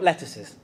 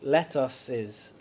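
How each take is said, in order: First: It is said as the single vegetable word. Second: It is said as 'let' plus 'uses'. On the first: The leafy vegetable. The speaker calls it wrong. "not lettuces" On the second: Several exhortations beginning with 'let us'. The speaker calls it right. "I tried to say that very carefully. ... We've got three let-uses"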